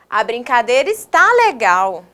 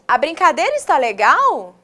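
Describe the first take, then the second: First: It is said with an exclaiming, affirming tune. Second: It is said with a questioning tune. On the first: The speaker affirms that it really is fun. "Eu afirmei" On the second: The speaker wants to know if it is fun. "Fiz uma pergunta para alguém"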